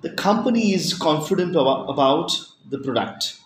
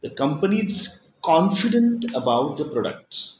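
First: "company" punched, the rest falling; emphasis on the word company; stress on company. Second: "confident" punched, rest falling; emphasis on the word confident; stress on confident. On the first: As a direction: lean on "company" to single it out. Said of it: "stress in sentences to emphasize what you want". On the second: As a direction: hit "confident" to mean not unsure. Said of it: "means not unsure". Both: Shown as a demonstration.

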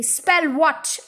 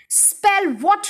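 First: Mildly confused question; puzzled boy. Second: High, rising, impatient repeat; exasperated headmistress. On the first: Eric fails to understand the order, puzzled. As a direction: ask it innocently, without force. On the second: Headmistress corrects the confused boy, exasperated. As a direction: throw the words back, pitched up. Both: A narrator's reading.

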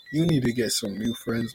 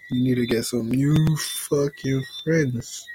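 First: Said in the usual way. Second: "new" stressed, said slowly. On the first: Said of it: "first take". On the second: Shown as a demonstration. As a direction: lean slowly on "new fucking". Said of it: "repeat with emphasis".

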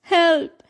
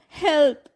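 First: Louder, raised cry of "Help!"; the first, bigger scream of "Help!" to the river. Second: Fading second scream of "Help!"; second cry for help. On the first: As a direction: call out "Help!" in panic. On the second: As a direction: repeat "Help!" with less force. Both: A narrator's reading. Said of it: "Jasmine screamed".

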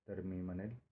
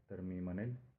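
No difference in how they are said.

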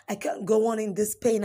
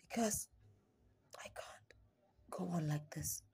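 First: Said in the usual way. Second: Slow, much softer whisper, almost gone; despairing whisper. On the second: Acted. Poet at breaking point to the listener, whispered. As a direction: let the words drain out in a whisper. Poem's lowest, despairing moment.

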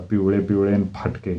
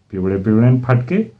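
First: Said in the usual way. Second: "पिवळे पिवळे न फाटके" thrown back with rising question tune; incredulous echo. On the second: Acted. Teacher repeating pupil's insult, "पिवळे पिवळे न फाटके" as incredulous question. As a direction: end "फाटके" on an indignant rise.

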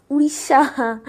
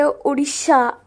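First: Odisha said as oo-isha, d nearly dropped; Odisha pronunciation. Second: Odisha said oh-DEE-sha, slow and clear; Odisha pronunciation. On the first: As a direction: say Odisha the local way, blurred d. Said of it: "but it's Odisha". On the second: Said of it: "We say Odisha". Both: Shown as a demonstration.

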